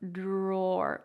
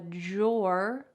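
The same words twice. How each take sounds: First: The word begins with a clear 'dr' sound. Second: The word begins with a 'j'-like sound. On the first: "with a little bit more of a clear D R sound" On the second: "with a J sound"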